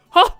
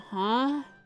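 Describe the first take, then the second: First: It sounds shocked and startled. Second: It sounds puzzled and questioning.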